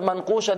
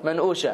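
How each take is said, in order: First: The middle consonant is a deep q sound. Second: The middle consonant is a glottal stop. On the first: "instead of manqusha" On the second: "they don't pronounce the qaf. The qaf is a hamza"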